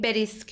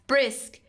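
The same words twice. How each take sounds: First: A short vowel separates the b and r. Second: The b and r sounds are joined directly. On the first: The speaker calls it wrong. "نمیگیم بریسک" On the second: The speaker calls it right. "مثل بریسک"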